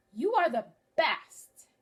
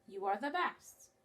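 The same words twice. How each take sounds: First: 'You are the best.' said louder and higher after a clear pause; voiced quote after comma pause. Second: Said in the usual way. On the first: Shown as a demonstration. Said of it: "Notice how my voice changes". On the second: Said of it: "Now I'm gonna read it with the comma".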